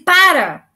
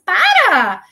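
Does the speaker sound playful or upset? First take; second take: upset; playful. First: It is said in an annoyed, upset tone. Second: It is said in a light, playful tone. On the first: The speaker is annoyed. "Agora você fala assim, para, você está chateado" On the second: It is a joke. "Se você fala assim, para! É uma brincadeira"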